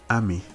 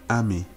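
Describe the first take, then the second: First: The first syllable is high, the second low. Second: The same.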